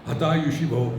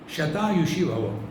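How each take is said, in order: First: The first word begins with an 'h' sound. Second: The first word begins with an 'sh' sound. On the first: "So Sha becomes Ha. What will it become?" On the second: "The original blessing is"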